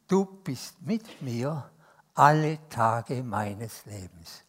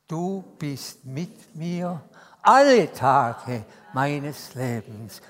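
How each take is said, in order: First: Each word drawn out slowly, alle stressed; slow, weighted congregational recitation; slow affirmation. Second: Slower and louder on alle Tage; slow recitation swelling to a loud finish; slow emphatic affirmation. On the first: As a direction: spell out the promise word by word. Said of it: "Sagen wir das mal miteinander". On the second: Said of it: "jetzt unterstreichen wir das alle". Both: Shown as a demonstration.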